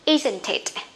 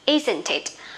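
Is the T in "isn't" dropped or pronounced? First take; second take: pronounced; pronounced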